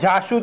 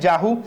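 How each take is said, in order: First: The middle consonant is a sh sound. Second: The middle consonant is an h sound. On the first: This is the standard pronunciation. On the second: This is the Surati dialect pronunciation.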